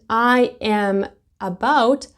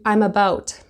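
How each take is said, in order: First: I am is said as two separate words. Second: I am is blended into one syllable.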